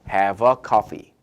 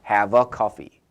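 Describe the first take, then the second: The two takes are said the same way.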